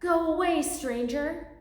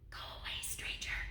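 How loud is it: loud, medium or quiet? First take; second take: medium; quiet. First: It is said a bit louder. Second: It is said quietly.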